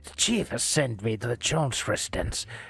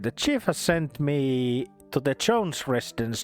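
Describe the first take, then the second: First: It is read in a put-on gruff character voice. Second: It is read in a natural speaking voice.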